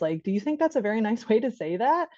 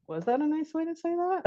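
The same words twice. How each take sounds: First: Said in the usual way. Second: High, soft put-on voice; put-on parent question. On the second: Shown as a demonstration. Parent questioning a child's manners, high soft voice. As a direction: pitch the whole question up high.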